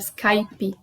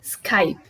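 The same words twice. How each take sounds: First: The word ends with an added vowel after P. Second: The word stops on the P sound. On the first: The speaker calls it wrong. "De uma forma abrasileirada" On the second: The speaker calls it right. "sem vogal nenhuma"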